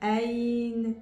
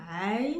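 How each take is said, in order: First: It begins with a plain open vowel, no throat squeeze. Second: It begins with a squeezed sound deep in the throat. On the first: The speaker calls it wrong. "ils vont dire Aïn, et c'est pas la même chose" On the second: The speaker calls it right. "au lieu de dire Aïn"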